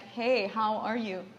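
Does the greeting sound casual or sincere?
sincere. It sounds warm and sincere.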